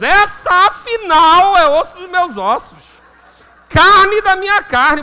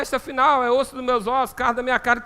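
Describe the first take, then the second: First: It is said with lively, excited energy. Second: It is said flatly, without enthusiasm. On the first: The speaker is thrilled at what he sees. The speaker calls it right. "ele estava animado aqui" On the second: The speaker feels nothing special. The speaker calls it wrong. "tem gente que lê esse, esse versículo vinte e três desanimado"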